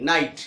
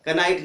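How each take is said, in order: First: नाइट starting on n; silent K. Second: कनाइट with "ka" before the n; sounded K. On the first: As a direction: say नाइट with the k dropped. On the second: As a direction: say कनाइट, voicing the k. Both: Shown as a demonstration. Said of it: "कनाइट नहीं".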